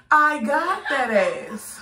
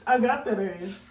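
First: Slow, louder, rising gloat on "I got that ass"; drawn-out gloat. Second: Said in the usual way. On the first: Real, not acted. Prankster rubbing it in to viewers, slow and louder.

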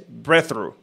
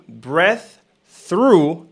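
First: "breath through" joined with one TH; no gap between "breath" and "through"; linked breath through. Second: "breath", pause, then "through"; full TH on each of "breath" and "through"; separated breath through. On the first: Teacher showing the native form, linked. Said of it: "Un solo sonido de Z". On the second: Teacher showing the careful form, separated. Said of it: "Ahora el que era". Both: Shown as a demonstration.

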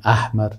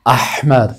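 First: احمر with a plain English-like h, the common mistake; wrong pronunciation. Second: احمر with a strong pharyngeal ħ from the throat; correct pronunciation. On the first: Teacher showing students the mistaken احمر, plain h. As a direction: say احمر wrongly, h as a light breath. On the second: Teacher giving students the correct احمر, throaty ħ. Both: Shown as a demonstration. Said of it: "غلط است".

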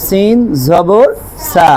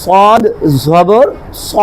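First: Light "সিন জবর সা", no heaviness on the vowel; thin Arabic Sin. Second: Full, rounded "স" with the back of the tongue raised; heavy Arabic Sad. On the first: (পাতলা করে "সা" উচ্চারণ) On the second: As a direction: say "স" as a thick, heavy emphatic s. (মোটা করে "স" উচ্চারণ) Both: Shown as a demonstration. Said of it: "সিন পাতলা আর স".

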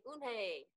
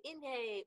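First: "Unhei" as oon-hay, called out; loud, high "Unhei", starting with oon; attempt at the name. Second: "Inhei" as in-hay, called out high; loud, high "Inhei", starting with in; mispronounced attempt. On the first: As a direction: try the name loudly with an oo, "Unhei". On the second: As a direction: try the name loudly with a short i, "Inhei". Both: A narrator's reading. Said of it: "Everyone tried to say it".

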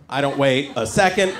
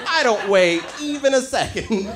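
First: Said in the usual way. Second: "I don't wait even a second" slowed, stress on "even"; slow emphatic correction. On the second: Shown as a demonstration. Comic correcting himself, slower and emphatic. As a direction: drag out "even a second" to insist.

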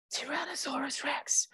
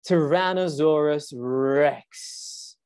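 First: Hushed, voiceless whisper. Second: Slow, drawn-out dread; dramatic reveal. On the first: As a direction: whisper it as Jack, much softer. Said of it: "whispered Jack". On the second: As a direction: stretch the name out slowly, ominously. Reads the dramatic reveal to children. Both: A narrator's reading.

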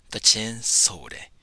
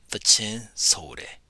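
No difference in how they are said.

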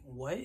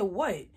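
First: Low, hushed mock disbelief; mama's stunned what. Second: Said in the usual way. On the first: Mama hears about Dollar Tree deodorant, stunned and hushed. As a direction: drop it low and soft, questioning.

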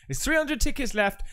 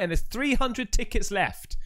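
First: Hushed secretive whisper of There's three hundred tickets left; whispered urgent tip to fans. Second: Said in the usual way. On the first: Shown as a demonstration. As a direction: drop to a conspiratorial whisper. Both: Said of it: "whispered repeat".

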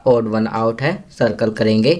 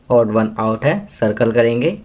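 The two takes are said the same way.

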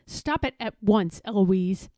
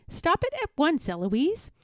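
First: Stern tutor's order; firm, contained crossness; mildly mad. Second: High, cheeky echo; mimicking the tutor. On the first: Tutor getting madder at Eloise, firm and mildly cross. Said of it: "he gets madder and says". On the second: Eloise copying her madder tutor, high and cheeky. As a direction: parrot the order, name lilting up. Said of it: "And then I say". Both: A narrator's reading.

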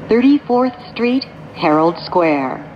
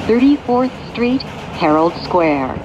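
No difference in how they are said.

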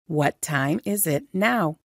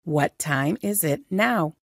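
No difference in how they are said.

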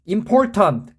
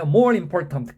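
First: Said in the usual way. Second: "More" stressed, then a break before "important"; falling "More important", split clearly in two; two separate words. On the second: Shown as a demonstration. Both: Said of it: "끊어주세요".

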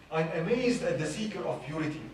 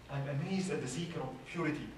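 First: Reciting a poem. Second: The poem line again, softer and falling; softer recited verse. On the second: Repeating the poem line to the congregation, softer. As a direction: drop the voice, let it settle. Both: Shown as a demonstration. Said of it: "there is this poem that says".

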